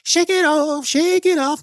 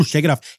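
First: Pep-talk yourself up in a high singsong; chirpy high shake it off; high sing-song. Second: Said in the usual way. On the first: Real, not acted. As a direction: shake it off sung out much higher.

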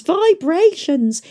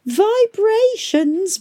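First: Falling, drawn-out complaint; صوت متذمر هابط; falling whine. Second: Rising, stretched-out whine; صوت متذمر ممدود; drawn-out whine. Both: A narrator's reading.

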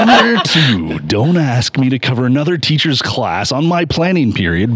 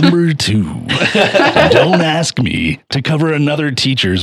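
First: Fighting game announcer. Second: High hyped announcer call; fighting game announcer. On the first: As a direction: announce it like a big bout. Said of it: "let me start over". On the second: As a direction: boom it out like an arena announcer. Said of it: "Will you talk in your announcer voice more?". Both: Pretend.

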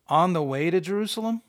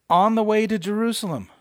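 First: "On the way to Jerusalem" questioned, lifting at the end; incredulous question. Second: "On the way to Jerusalem" high and loud, falling at the end; announced heading. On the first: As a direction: query "On the way to Jerusalem" as if doubting the title. Repeats the subheading in disbelief. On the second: Reads out the printed subheading. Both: Shown as a demonstration.

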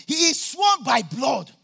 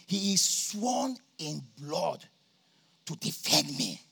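First: "He is sworn by blood" called out slowly, "sworn" stretched and hit hard; emphatic repeat. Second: Quiet awe. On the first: Real, not acted. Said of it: "some people are not understanding my language". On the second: Retold or imitated. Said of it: "But then they say".

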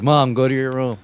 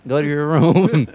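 First: Raised voice ordering mom away; mock son bossing his mom; telling mom off. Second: Slow, louder, higher mock order; exasperated son repeating himself loudly; insistent repeat to mom. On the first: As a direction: send mom off to her room. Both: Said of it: "It's like, it's like".

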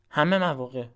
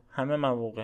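First: همه said higher and louder, then مواقع; emphatic همه مواقع, first take louder; stress on همه. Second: Said in the usual way. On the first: Shown as a demonstration. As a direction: punch the word همه. Emphatic repeat of a phrase.

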